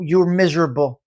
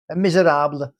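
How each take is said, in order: First: Said in the usual way. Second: "Miserable" said mi-zer-AH-bleh; mock foreign pronunciation. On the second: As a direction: stretch "Miserable" into a foreign-sounding -AH-bleh ending. Word repeated with altered pronunciation.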